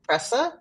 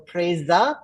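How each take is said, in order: First: The middle consonant is a hissing s sound. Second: The middle consonant is a buzzing z sound. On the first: The speaker calls it wrong. "not presa" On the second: The speaker calls it right. "that S becomes like a Z sound"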